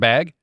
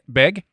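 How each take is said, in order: First: The vowel sounds like the one in 'bag'. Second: The vowel sounds like the one in 'beg'.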